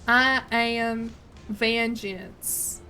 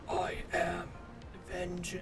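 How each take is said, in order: First: It is a Southern voice without Batman gravel. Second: It is a deep, gravelly Batman voice.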